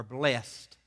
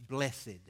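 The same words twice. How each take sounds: First: One-syllable blest, punched; blessed in one syllable. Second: Two-syllable blessed, measured and clear. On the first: Preacher offering the other reading, blessed as one syllable. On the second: Preacher reading the Psalm's first word, blessed in two syllables. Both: Shown as a demonstration. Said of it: "or blessed".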